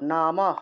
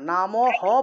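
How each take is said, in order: First: The final h is cut short without a vowel. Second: The final h carries a full vowel after it. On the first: The speaker calls it right. "হসন্ত দিয়ে হয়ের উচ্চারণটা করতে হবে" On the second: The speaker calls it wrong. "নামও হটা পূর্ণ উচ্চারণ হবে না, নামও হ বলা যাবে না"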